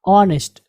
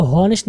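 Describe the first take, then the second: First: ऑनेस्ट starting straight on the vowel; silent H. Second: हॉनेस्ट with the initial h wrongly sounded; H pronounced. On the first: Teacher models the right reading, silent h. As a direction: say ऑनेस्ट with no h, falling at the end. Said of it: "क्या पढ़ेंगे?". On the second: Teacher warns against this reading, h pronounced. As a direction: start हॉनेस्ट on an audible h. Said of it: "आप इसको हॉनेस्ट नहीं पढ़ेंगे". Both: Shown as a demonstration.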